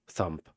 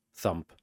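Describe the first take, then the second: No difference in how they are said.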